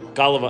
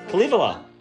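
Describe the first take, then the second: First: The word begins with a G sound. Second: The word begins with a K sound. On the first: The speaker calls it wrong. "Are you saying Gullivala? Because it sounds like with a G" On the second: The speaker calls it right. "It's the Kalivala"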